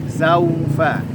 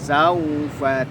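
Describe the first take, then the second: No difference in how they are said.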